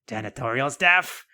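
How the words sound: It is said in a put-on cartoon character voice.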